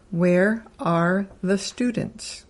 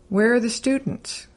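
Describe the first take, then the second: First: Each word is said separately and carefully. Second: The question word is run together with the verb.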